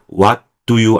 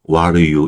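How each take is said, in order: First: Each word is said fully and separately. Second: The words are reduced and run together. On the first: The speaker calls it wrong. "what do you 안 하고요" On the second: The speaker calls it right. "이렇게 되는 거예요"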